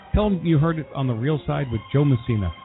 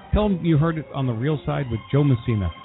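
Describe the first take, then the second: Both takes have the same delivery.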